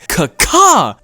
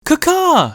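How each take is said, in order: First: It is said in a flustered, aggressive tone. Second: It is said in a gentle, sweet tone.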